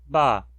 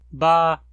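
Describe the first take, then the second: First: The syllable is said on a mid tone. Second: The syllable is said on a high tone. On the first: It once ended in a nasal. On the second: It once ended in a glottal stop.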